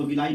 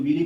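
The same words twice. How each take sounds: First: "विलाई" in three syllables, vi-laa-ee; the teacher's own version, "विलाई", ending aa-ee; preferred pronunciation "विलाई". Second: "विली" in two syllables, vi-lee; variant pronunciation "विली". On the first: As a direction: say "विलाई" with aa before the final ee. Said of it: "लेकिन हम इसको विलाई बोलते हैं". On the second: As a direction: say "विली" with a long ee ending. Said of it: "कुछ लोग विली बोलते हैं". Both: Shown as a demonstration.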